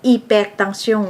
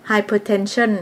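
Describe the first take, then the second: First: "hypertension" said the French way, ee-pehr-tahn-syon; French pronunciation. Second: "hypertension" said the English way, hai-per-ten-shen; English pronunciation. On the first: Narrator showing how French differs, "hypertension" in French pronunciation. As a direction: silent h in "hypertension", nasal French endings. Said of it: "ภาษาฝรั่งเขียนคือกัน แต่ออกเสียงต่าง". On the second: Narrator giving the English medical term, "hypertension" in English pronunciation. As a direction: give "hypertension" its English sounds, starting "hai". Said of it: "ที่ภาษาอังกฤษเอิ้นว่า".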